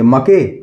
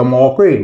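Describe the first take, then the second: First: The vowel is a short 'a' sound. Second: The vowel is an 'aw' sound. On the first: "ना हम अ से pronounce कर सकते हैं" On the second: "ना औ से प्रोनाउंस कर सकते हैं"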